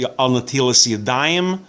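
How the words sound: Yiddish-style pronunciation, with a final s sound. "if you're using Yiddish"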